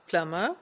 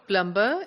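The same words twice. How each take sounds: First: Only the m sound is heard, without b. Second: The b sound after the m is pronounced. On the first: It follows the standard pronunciation. The speaker calls it right. "We only pronounce the M sound" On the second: It follows the spelling. The speaker calls it wrong. "they pronounce the medial consonant cluster M B"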